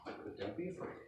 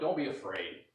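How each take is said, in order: First: It is said in a gentle, compassionate tone. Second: It is said in a harsh, dismissive tone.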